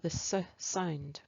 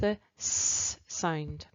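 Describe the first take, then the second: First: The S is followed by an added uh vowel. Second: The S is a pure hiss with no vowel. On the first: The speaker calls it wrong. "we might say" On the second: The speaker calls it right. "When we should say"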